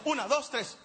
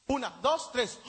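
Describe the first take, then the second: First: Cuenta "Una, dos, tres" de corrido, sin pausas; conteo rápido. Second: Cuenta "Una, dos, tres" despacio, con pausas largas entre los números; conteo lento. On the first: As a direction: vuelve a contar "Una, dos, tres" seguido y con ritmo. ("Una, dos, tres" dicho rápido de un tirón) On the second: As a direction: cuenta "Una, dos, tres" arrastrado, esperando la reacción del público. ("Una, dos, tres" contado lento y con silencios) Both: Shown as a demonstration. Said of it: "No le salió".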